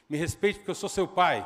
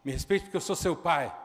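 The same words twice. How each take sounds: First: Father's loud rebuke, pitch barely up; acted loud fatherly demand; loud stern command. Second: Repeated loud fatherly rebuke; retold loud demand for respect; loud stern command again. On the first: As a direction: bellow the command as the angry father. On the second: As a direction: shout it once more as the father. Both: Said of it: "vou falar alto".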